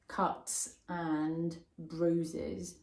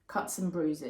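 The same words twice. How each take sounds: First: The words are said separately, not linked. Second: The words are run together like one word. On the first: The speaker calls it wrong. "Make sure you don't say" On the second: The speaker calls it right. "Like one word"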